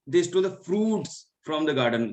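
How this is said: The word fruits carries the main stress. It was the fruits that they stole. "यहाँ पे मैं fruits पे किया है"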